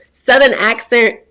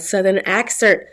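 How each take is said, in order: First: Loud, drawn-out Southern accent; slow, higher-pitched try at a Southern accent; attempted Southern accent. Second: Said in the usual way. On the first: Shown as a demonstration. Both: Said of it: "me getting that Southern accent".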